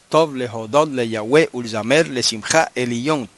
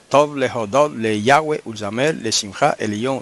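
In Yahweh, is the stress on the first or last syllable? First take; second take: last; first. First: Yahweh is stressed on its last syllable. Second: Yahweh is stressed on its first syllable. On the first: The speaker calls it right. "Lo correcto es ... El acento tiene que ir al final" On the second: The speaker calls it wrong. "Si usted pronuncia Yahweh, entonces daña la poesía"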